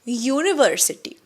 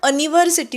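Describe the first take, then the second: First: The word begins with a 'yoo' sound. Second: The word begins with a short 'a' sound. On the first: The speaker calls it right. "आवाज यू असा होतो" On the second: The speaker calls it wrong. "इथे आपण अनिव्हर्सिटी नाही म्हणत"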